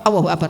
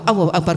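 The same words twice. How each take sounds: No difference in how they are said.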